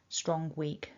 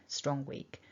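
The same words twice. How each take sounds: The two takes are said the same way.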